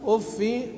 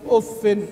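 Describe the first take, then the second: First: The word ends in a plain i vowel. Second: The word ends in an i vowel plus n. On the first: "بالكسر ها بدون تنوين" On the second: "قرأ بالتنوين والخفض"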